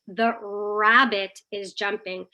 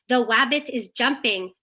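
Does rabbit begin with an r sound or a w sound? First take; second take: r sound; w sound. First: Rabbit begins with a long, slow r sound. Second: Rabbit begins with a w sound. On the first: The speaker calls it right. "you're highlighting the sound, you're saying it slowly, you're prolonging it" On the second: The speaker calls it wrong. "If your child says a word or a sentence the wrong way"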